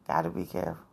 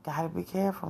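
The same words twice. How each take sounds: First: Soft unvoiced whisper of a warning. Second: Said in the usual way. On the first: Real, not acted. Vlogger warns viewers about dating sites in a whisper. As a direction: breathe the warning out with no voice.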